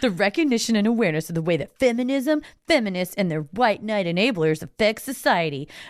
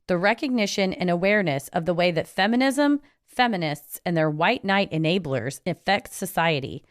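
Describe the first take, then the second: First: It is read in a put-on voice. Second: It is read in his normal voice.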